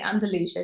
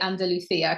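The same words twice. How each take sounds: First: The name is said with English-style sounds. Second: The name is said with Spanish-style sounds. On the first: "in the English pronunciation we say Andalusia" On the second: "that's just how I how I've learned it myself"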